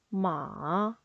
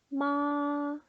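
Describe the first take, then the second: First: The pitch falls low, then rises. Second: The pitch stays high and level throughout. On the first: "음을 내렸다 올리시면 돼요" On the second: "높고 길게 뺍니다"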